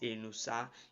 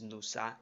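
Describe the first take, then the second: First: The name begins with a vowel sound. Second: The name begins with a consonant sound. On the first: The speaker calls it right. "a vowel sound and not a consonant sound" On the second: The speaker calls it wrong. "it is wrong"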